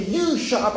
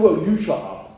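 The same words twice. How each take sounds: First: Higher-pitched mock insult; mock hostile order. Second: Mock retort. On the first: Stranger to diner in imagined row, mock hostile order. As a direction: throw the insult high, acting the stranger. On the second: Diner answering the stranger back, mock retort. His imagined retort to the insult.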